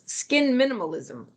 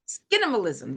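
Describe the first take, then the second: First: It is said as two separate words. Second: It is blended into one single word. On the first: The speaker calls it wrong. "Am I saying that correctly?" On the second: The speaker calls it right. "There we go"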